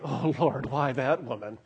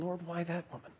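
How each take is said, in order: First: It sounds like an exasperated complaint. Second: It sounds like a sincere, humble question.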